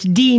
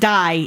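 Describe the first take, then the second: First: The word is pronounced with an ee vowel. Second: The word is pronounced with an eye vowel. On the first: The speaker calls it right. "it's D" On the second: The speaker calls it wrong. "not die"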